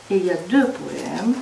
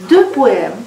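First: Said in the usual way. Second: Deux said louder and stressed. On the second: Shown as a demonstration. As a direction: lean hard on deux. (accent appuyé sur deux)

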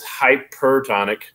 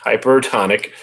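First: Hypertonic fumbled as "hightpertonic", with a stray t after the first syllable; tongue-tied hypertonic; slip of the tongue. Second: Fix the slip and say Hypertonic carefully; careful correction of Hypertonic; corrected word. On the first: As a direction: trip over the word hypertonic, slurring the first syllable. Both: Real, not acted. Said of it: "A little bit of dyslexia there".

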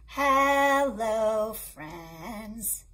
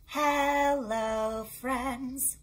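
Both takes have the same delivery.

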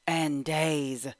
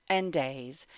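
Both takes have the same delivery.

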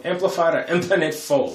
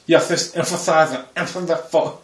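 First: Said in the usual way. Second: A mock laid-back star voice saying the phrase. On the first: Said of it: "I sound like". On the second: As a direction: drawl it lazily like a laid-back movie star.

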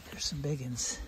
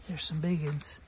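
First: Said in the usual way. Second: "big" stressed, the whole line louder; "big uns" pushed out louder; emphatic repeat. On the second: Shown as a demonstration. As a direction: lean hard on "big" the second time. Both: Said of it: "repeated louder".

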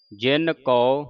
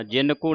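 First: ਜਿਨ ਕੋ as "jin kau"; open au ending. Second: ਜਿਨ ਕੋ with a plain "ko"; wrong close o. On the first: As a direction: widen the end of ਜਿਨ ਕੋ to "au". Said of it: "ਜਿਨ ਕੋ ਨਹੀਂ ਪੜ੍ਹਨਾ". (ਜਿਨ ਕੋ ਨੂੰ "ਜਿਨ ਕਉ" ਬੋਲੋ) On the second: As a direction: end ਜਿਨ ਕੋ on a rounded o. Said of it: "ਨਹੀਂ ਪੜ੍ਹਨਾ". (ਜਿਨ ਕੋ ਦਾ ਅੰਤ ਸਿੱਧਾ "ਕੋ") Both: Shown as a demonstration.

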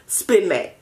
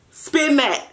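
First: Said in the usual way. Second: Higher, playful. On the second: Shown as a demonstration. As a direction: hype it up the second time.

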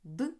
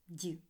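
First: "д" as a hard consonant, like ди; short isolated hard "д". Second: "ді" with a palatalized д; short soft "ді", like дь. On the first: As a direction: sound out "д" unsoftened. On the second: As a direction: sound out "ді" softened, tongue raised. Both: Shown as a demonstration. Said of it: "Тверді та м'які приголосні".

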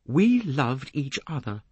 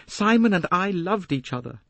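First: Slow, high stress through "We loved each other"; emphatic. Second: High, quick-flowing declaration; young woman's raised, insistent voice; Jacqueline, impassioned. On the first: A narrator's reading. Young woman corrects the detective, "We loved each other" slow and emphatic. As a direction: spell out "We loved each other" slowly and firmly. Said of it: "She repeated with emphasis". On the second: Acted. Young woman tells the detective of her romance, impassioned high voice. First take, before repeating with emphasis.

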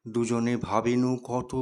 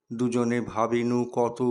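No difference in how they are said.

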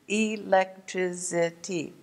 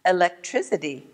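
First: "Electricity" slowly split into e, lec, tri, ci, ty; syllable by syllable. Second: Said in the usual way. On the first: Shown as a demonstration. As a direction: count out "Electricity" in five slow beats. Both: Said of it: "Five syllables in one word".

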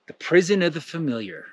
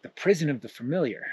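First: Said in the usual way. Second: Softer, dismayed repeat of the sign; quiet dismayed echo. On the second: Acted. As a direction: mutter it back in dismay. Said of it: "He's like".

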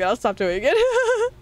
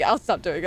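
First: I'll stop doing it drawn out higher and slower; higher, slower take. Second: Said in the usual way. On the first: Acted. Streamer teasing chat she'll stop the bit, high and slow. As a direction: stretch it out high in mock promise.

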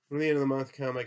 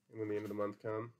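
First: Much louder, higher restart; loud recital. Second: Said in the usual way. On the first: A narrator's reading. George taking up his old speech for Lenny, loudly. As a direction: launch into it at full volume, pitched up.

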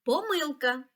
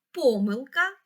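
First: Помилка with a stressed мил, po-MYL-ka; stress on second syllable. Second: Помилка with a stressed по, PO-myl-ka; stress on first syllable. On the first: Teacher explaining the double stress, second syllable of помилка. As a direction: hit the middle syllable of помилка. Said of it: "так само правильно буде сказати". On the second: Teacher explaining the double stress, first syllable of помилка. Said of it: "слово має подвійний наголос". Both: Shown as a demonstration.

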